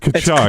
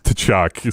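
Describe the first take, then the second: First: The name starts without a T sound. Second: The name starts with a T sound. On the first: This is the name's real pronunciation. The speaker calls it right. "the actual pronunciation" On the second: It jokingly echoes someone else's mispronunciation. The speaker calls it wrong. "I was just having some fun with the T"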